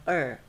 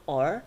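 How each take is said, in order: First: Or reduced to a neutral er; schwa sound. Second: Or said strong, with a full o; full vowel. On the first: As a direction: weaken or into er. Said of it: "Er is schwa sounds". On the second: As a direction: give or its full, unreduced vowel. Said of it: "So or become er". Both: Shown as a demonstration.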